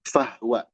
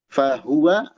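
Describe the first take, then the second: First: The word has two syllables, the vowel after h dropped. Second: The word has three syllables with a clear hu. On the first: The speaker calls it wrong. "hati-hati jadi fahwa" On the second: The speaker calls it right. "Hu, jelasin hu-nya"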